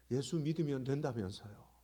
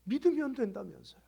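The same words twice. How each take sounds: First: Said in the usual way. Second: Higher, more insistent accusing repeat; retold reproach. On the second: Caller reproaching her pastor, imitated with raised voice. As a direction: throw the promise back, voice raised.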